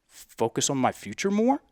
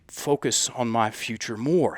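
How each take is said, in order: First: The voice rises at the end. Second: The voice falls at the end. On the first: The statement sounds unsure, like a question. The speaker calls it wrong. "with up talk at the end" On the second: The statement sounds firm and committed. The speaker calls it right. "be more solid with it"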